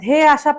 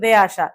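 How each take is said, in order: First: The first consonant is a breathy, aspirated dh. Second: The first consonant is a plain, unaspirated d. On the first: The speaker calls it right. "ধে আসা পানির তোড়েকে" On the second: The speaker calls it wrong. "বলছেন দে আসা ... ধয়ের উচ্চারণটা ভালো পাইনি"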